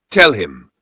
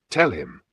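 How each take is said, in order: First: Loud, forceful command; demanding. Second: Said in the usual way. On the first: A narrator's reading. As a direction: bark the order at her. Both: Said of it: "Chief Okonkwo demanded".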